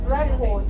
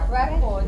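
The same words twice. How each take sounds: Both takes have the same delivery.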